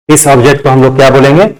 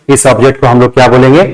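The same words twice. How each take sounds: The two takes are said the same way.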